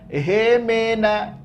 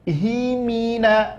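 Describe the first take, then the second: First: The vowels sound like a lax e. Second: The vowels are clear i sounds. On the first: The speaker calls it wrong. "Jangan hemena" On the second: The speaker calls it right. "mimnya baris bawah, haknya baris bawah"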